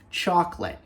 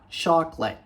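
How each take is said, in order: First: The 'a' vowel is dropped entirely. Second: The same.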